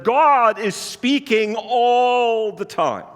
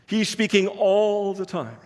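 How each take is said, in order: First: God is speaking all the time, dragged out very slow and pressed hard; slow emphatic claim. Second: Said in the usual way. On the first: Acted. Preacher to congregation, stating the bold claim, slow and emphatic. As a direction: land the bold claim slowly, word by word.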